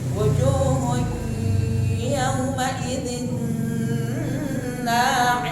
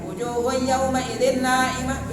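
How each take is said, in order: First: The nasal sound is held for several beats. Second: The nasal sound is rushed and cut short. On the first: The speaker calls it right. "Gitu, ya" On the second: The speaker calls it wrong. "jangan terburu-buru. Jangan ... begitu"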